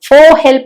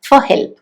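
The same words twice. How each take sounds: First: The word 'for' has a full, strong vowel. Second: The word 'for' has a reduced, weak vowel. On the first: The speaker calls it wrong. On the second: The speaker calls it right.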